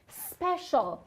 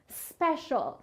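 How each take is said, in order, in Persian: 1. کلمه مستقیم با صدای s شروع میشه. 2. کلمه مستقیم با صدای s شروع میشه.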